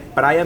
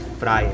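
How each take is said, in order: First: The word begins with a P sound. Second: The word begins with an F sound. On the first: The speaker calls it right. "é praia mesmo" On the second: The speaker calls it wrong. "não é fraia"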